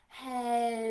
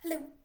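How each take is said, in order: First: It is said very slowly. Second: It is said very fast.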